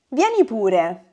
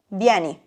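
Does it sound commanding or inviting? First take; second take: inviting; commanding. First: It sounds like a soft, friendly invitation. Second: It sounds like a firm, peremptory order.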